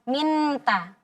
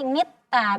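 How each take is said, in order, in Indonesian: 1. Bunyi n diucapkan penuh dan jelas. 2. Bunyi n digantikan dengan t yang digandakan. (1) "Kalau kita jelaskan jadi minta" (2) "Kalau kita jelaskan jadi ta, jadi mitta"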